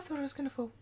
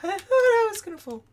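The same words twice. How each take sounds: First: It is said in her normal voice. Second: It is said in a put-on voice.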